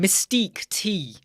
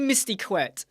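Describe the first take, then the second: First: The name ends with a separate 'tee' sound. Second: The name ends with a 'ket' sound. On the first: The speaker calls it right. "it's Mystique T" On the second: The speaker calls it wrong. "I said Mystiquette"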